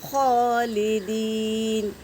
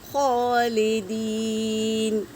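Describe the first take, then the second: Both takes have the same delivery.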